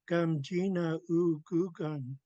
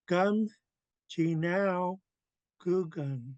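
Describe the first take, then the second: First: The vowel after the second word is said separately. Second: The vowel is blended into the second word. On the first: "The other way would have been" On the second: "it gets blended in"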